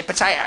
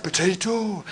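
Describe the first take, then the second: First: "potato" australisch, "po-tai-a" mit verschlucktem t; "potato" als lässiges Australisch; Australian "potato". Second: "potato" walisisch, weich und leiser; "potato" mit walisischem Singsang gesprochen; Welsh "potato". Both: Shown as a demonstration. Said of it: "It's different, isn't it?".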